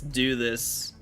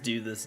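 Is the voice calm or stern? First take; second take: stern; calm. First: It is said in a stern, serious voice. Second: It is said in a gentle, calm voice. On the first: It is a firm final command. "it's very serious" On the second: It is a polite request. "nice, calm"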